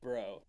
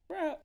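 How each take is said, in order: First: It is said in a normal, deeper voice. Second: It is said in a squeaky, high-pitched voice. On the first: "It didn't sound like bro" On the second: "It sounded more like bro"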